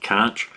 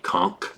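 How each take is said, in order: First: The word is pronounced the way it is spelled. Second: The word is pronounced unlike its spelling. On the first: The speaker calls it wrong. "You're gonna want to pronounce it conch" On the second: The speaker calls it right. "but it's actually conch"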